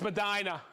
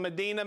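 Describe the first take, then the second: First: "Medina" said meh-DYE-nah; corrected pronunciation. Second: "Medina" said meh-DEE-nah; mistaken pronunciation. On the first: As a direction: say "Medina" with an EYE sound in the middle. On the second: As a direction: say "Medina" with an EE in the stressed middle. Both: Real, not acted. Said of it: "No, Medina or Medina?".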